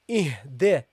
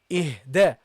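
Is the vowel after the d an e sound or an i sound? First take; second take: e sound; e sound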